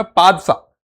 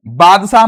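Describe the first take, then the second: First: पादशाह with a P at the start; correct name पादशाह. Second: बादशाह with a voiced B at the start; wrong name बादशाह. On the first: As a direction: begin पादशाह on an unvoiced P, not B. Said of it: "इसका नाम है पादशाह". (पादशाह, शुरू में ब नहीं, प की आवाज़) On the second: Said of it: "बादशाह मत सोच करना इसको". (बादशाह, शुरू में ब की आवाज़) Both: Shown as a demonstration.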